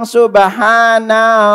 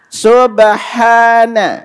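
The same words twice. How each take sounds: First: The final 'na' syllable is drawn out long. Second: The final 'na' syllable is kept short. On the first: The speaker calls it wrong. "nunnya jangan dipanjangin. Jangan bilang subhana rabbiyal a'la. Ini keliru" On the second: The speaker calls it right. "Ikuti subhana"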